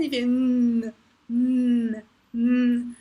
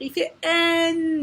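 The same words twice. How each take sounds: First: Nasal hum nnn, no vowel; just the sound "N", not its name; letter sound N. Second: Says "N" as the letter name en; wrong way, the name "N"; letter name instead of sound. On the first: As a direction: hum "N" through the nose. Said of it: "il fait pas N". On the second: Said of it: "Non, non, non, non". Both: Shown as a demonstration.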